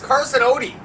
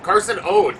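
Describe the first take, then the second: First: The surname ends with an 'ee' sound. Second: The surname ends without an 'ee' sound. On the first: The speaker calls it right. "It's Carson Odie. I should have writ- wrote it down O D E E" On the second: The speaker calls it wrong. "how many times did I mispronounce his name"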